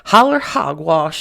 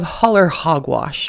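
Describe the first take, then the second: First: It is said in a West Virginia accent. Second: It is said in a general accent.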